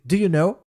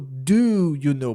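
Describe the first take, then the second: First: It is said quickly and run together. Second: It is said slowly and carefully.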